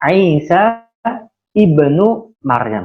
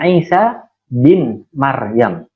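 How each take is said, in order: First: The middle word is the full form 'ibnu'. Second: The middle word is the short form 'bin'. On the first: It names a parent who is not the father. The speaker calls it right. "Yang tepat adalah" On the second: It treats the mother as if she were a father. The speaker calls it wrong. "tidak boleh disebut dengan"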